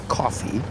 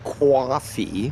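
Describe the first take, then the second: First: Coffee is said with a general accent. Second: Coffee is said with a New York accent. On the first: "as opposed to" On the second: "people in New York say"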